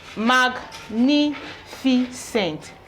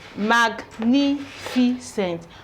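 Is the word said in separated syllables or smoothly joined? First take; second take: separated; separated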